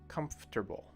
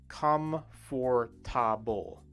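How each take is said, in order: First: The word is said with three syllables. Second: The word is said with four syllables. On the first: The speaker calls it right. "comfortable only has three sounds when we say it" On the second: The speaker calls it wrong. "If you try to read the word like it's spelled, you would read it as comfortable, comfortable, which is four sounds"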